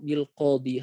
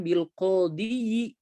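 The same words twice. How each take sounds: First: The word ends without an extra short vowel. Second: The word ends with an extra short 'i' vowel. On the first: This is how Arabs actually say it. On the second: This is the form the grammar would expect.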